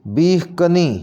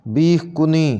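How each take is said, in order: First: बीह कनी with 'ka' opening the second word; correct pronunciation. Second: बीह कुनी with 'ku' opening the second word; mispronounced second word. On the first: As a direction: say बीह कनी as 'beekh ka-nee'. (बीह कनी के 'क' पर ज़बर बोलें) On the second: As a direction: say बीह कुनी as 'beekh ku-nee'. (बीह कुनी के 'क' पर पेश बोलें) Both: Shown as a demonstration. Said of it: "इसको सही ऐसे करके पढ़ेंगे".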